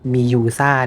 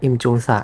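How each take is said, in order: First: It is said 'mee-yoo-sa' with a 'y' sound. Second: It is said 'im-joo-sa' with a 'j' sound. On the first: The speaker calls it right. "เขาอ่านว่ามียูซ่า" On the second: The speaker calls it wrong. "เขาไม่ได้อ่านว่าอิมจูสะนะ"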